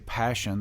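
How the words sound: It is pronounced the English way. "we say passion"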